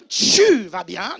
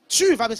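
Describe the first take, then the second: First: Loud, drawn-out "tchu" in "tu vas bien"; exaggerated "tchu". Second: Loud "Tu vas bien" with a clean T; correct "tu". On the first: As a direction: blast "tu" as a long "chu". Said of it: "C'est pas tu vas bien". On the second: Shown as a demonstration. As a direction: punch a crisp "Tu" before "vas bien". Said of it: "c'est tu vas bien".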